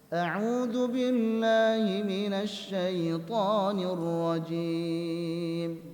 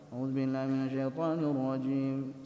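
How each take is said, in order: First: Every vowel is mixed with a nasal sound. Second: The words are mumbled unclearly, like gargling. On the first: "Campur dengan campur gunnah" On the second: "Enggak jelas. Kayak orang kumur-kumur"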